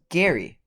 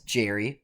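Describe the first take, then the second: First: The name starts with a hard G sound. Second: The name starts with a soft J sound. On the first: The speaker calls it right. "but as Gary" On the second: The speaker calls it wrong. "isn't pronounced as Jerry"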